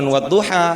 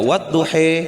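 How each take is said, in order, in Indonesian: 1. Kata ini berakhir dengan vokal 'a' terbuka. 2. Kata ini berakhir dengan vokal 'e'. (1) "bukan cuma wadduha" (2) "ada riwayat yang mengatakan cara bacanya wadduhe"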